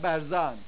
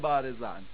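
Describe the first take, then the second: First: The first vowel is a short a. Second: The first vowel is a long a. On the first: "الفشو میندازن میگن برزان" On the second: "نمیگن بارزان"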